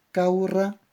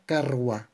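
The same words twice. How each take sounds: First: "caurra" said kau-rra, u before a rolled rr; original form. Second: "carwa" said kar-wa, r first, then w; metathesis form. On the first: Teacher modelling the original word before metathesis. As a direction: give the vowel u first, then the trilled rr. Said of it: "Metátesis". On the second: Teacher modelling the changed word after metathesis. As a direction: swap the sounds: r before the w. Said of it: "cambia a carwa". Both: Shown as a demonstration.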